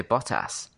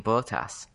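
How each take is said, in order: First: Bottas with short O, "BOT-ass"; British pronunciation. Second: Bottas with long O, "BOH-tass"; rejected pronunciation. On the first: Brit quoting what they all say, Bottas as bot-ass. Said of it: "they all say Bottas". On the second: Brit puzzled by presenters' version, Bottas as boh-tass. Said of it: "why they keep saying Bottas". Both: Retold or imitated.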